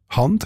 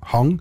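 First: The ending is a plain nd sound. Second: The ending is velarized to an ng sound. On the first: "dass eher nicht velarisiert wird"

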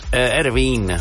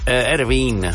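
First: The name is pronounced in an Italian way. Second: The name is pronounced in an Italian way.

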